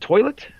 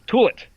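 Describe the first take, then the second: First: The first vowel is said as 'oy'. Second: The first vowel is said as 'oo'. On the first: The speaker calls it right. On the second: The speaker calls it wrong.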